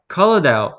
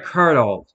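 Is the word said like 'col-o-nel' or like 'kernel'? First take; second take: col-o-nel; kernel. First: It is said as col-o-nel, following the letters. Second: It is said like kernel, with two syllables. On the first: The speaker calls it wrong. "always accidentally pronounced how it's spelled" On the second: The speaker calls it right. "Oh, right"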